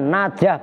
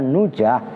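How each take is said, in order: First: The first syllable has an open a vowel. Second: The first syllable has a rounded u vowel. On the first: The speaker calls it right. "dengan dibaca fathah nunnya najah" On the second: The speaker calls it wrong. "bukan nujah"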